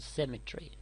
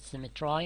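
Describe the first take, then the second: First: The last syllable ends with an ee sound. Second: The last syllable ends with an eye sound.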